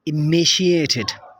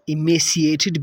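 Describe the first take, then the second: First: The middle consonant is an sh sound. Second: The middle consonant is an s sound.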